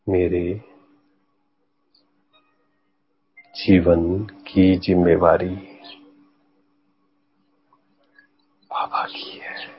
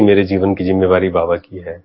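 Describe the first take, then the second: First: The sentence is spoken slowly and patiently. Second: The sentence is spoken quickly and hurriedly. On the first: The speaker calls it right. "सिर्फ slow down कर दीजिए। धैर्य" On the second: The speaker calls it wrong. "ऐसे नहीं"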